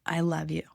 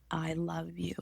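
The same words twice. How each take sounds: First: Said in the usual way. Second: Soft unvoiced whisper; a tender whisper to herself. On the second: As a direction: breathe the words with no voice. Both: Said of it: "I began to whisper".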